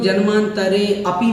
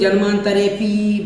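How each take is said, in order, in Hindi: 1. यह दो अलग शब्दों में बँट जाता है। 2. अंतिम 'pi' लंबा खींचा जाता है। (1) "जन्मांतरे अपि बोल देते हैं, वह भी नहीं बोलें" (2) "बड़ा पी कर देते हैं"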